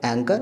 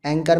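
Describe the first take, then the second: First: "एंकर" with N straight into K; correct pronunciation. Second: "एंकर" as "enh-kor" with H sounded; wrong pronunciation. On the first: Teacher giving the simple version, correctly pronounced. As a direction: say "एंकर", H silent. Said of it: "simple". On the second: Teacher showing how not to say it, mispronounced. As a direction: puff an H into "एंकर". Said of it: "तो नहीं कह रहे". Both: Shown as a demonstration.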